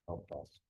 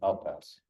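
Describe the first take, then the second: First: It is said quietly. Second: It is said loudly.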